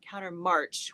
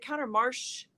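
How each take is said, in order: First: The word ends with a hard ch sound. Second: The word ends with a soft sh sound. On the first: "with a hard ch sound" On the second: "with a soft sh"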